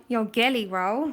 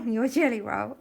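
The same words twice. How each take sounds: First: "gelly" said with a hard G, as in "get"; "gelly" as GHEL-ee. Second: "jelly" said with a soft J sound. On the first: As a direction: start "gelly" with a hard g sound. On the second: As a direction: start "jelly" as in "jam". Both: Real, not acted.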